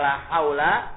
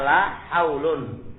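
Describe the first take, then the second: First: The word ends in a short a. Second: The word ends in un. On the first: The noun is the noun of la. "Boleh dibaca fathah" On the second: La works like laisa. "boleh dibaca rafa"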